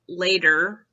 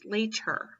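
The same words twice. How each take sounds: First: The middle t is softened, almost like d. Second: The middle t is pronounced crisply and clearly. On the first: The speaker calls it wrong. "It's not later" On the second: The speaker calls it right. "it's later"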